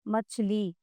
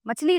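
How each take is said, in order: First: The final vowel is long and drawn out. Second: The final vowel is short and quick. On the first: The speaker calls it right. "बड़ी ई की मात्रा है उसमें हम कुछ बोल लेते हैं पॉज" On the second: The speaker calls it wrong. "मछली नहीं"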